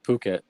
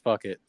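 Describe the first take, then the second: First: It does not sound like 'fuck it'. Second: It sounds like the English phrase 'fuck it'. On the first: The speaker calls it right. "Now it's called Phuket" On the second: The speaker calls it wrong. "I always thought it was fuck it"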